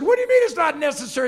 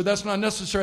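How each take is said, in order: First: High, fast, loud objection; loud protest. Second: Said in the usual way. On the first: Retold or imitated. Passenger insisting soldier take his seat, indignant protest.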